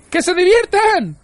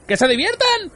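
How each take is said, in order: First: Slow, drawn-out, very high yell; outraged shriek. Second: Very high-pitched, outraged question; incredulous yell. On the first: Arthur fuming at Ford's calm advice, drawn-out outraged shriek. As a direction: stretch each word out in a high scream. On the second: Arthur throwing Ford's words back at him, incredulous yell. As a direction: shriek it back in disbelief. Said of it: "gritó Arthur". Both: A narrator's reading.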